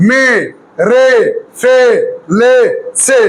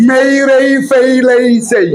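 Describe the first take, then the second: First: মে, রে, ফে, লে, সে with short plain vowels; wrong short E. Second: মেই রেই ফেই লেই সেই, each ending in "ey"; corrected AY glides. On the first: Teacher showing what goes wrong, glideless মে, রে, ফে, লে, সে. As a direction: cut each of মে, রে, ফে, লে, সে short, no glide. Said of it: "এই না বলে যদি এ বলতাম". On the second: Teacher showing the right sound, gliding মেই রেই ফেই লেই সেই. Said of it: "আর যখন বলবো এই". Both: Shown as a demonstration.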